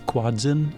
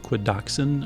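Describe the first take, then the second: First: The name is said with two syllables. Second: The name is said with three syllables. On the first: "technically is the right way to pronounce it" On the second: "I pronounce it Quadoxin. I throw in an O in there"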